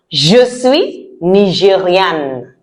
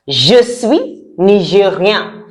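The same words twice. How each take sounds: First: "nigériane" slow, ending in a sounded N; feminine N ending. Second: "nigérian" slow, ending in a nasal vowel; masculine nasal ending. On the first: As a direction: close firmly on the N of "nigériane". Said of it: "For the girls". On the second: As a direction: leave the N of "nigérian" unsounded. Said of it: "for the boys". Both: Shown as a demonstration.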